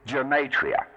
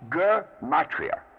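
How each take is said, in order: First: The word begins with a soft G sound. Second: The word begins with a hard G sound. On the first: The speaker calls it wrong. "One of the common mispronunciations" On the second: The speaker calls it right. "It's a hard G"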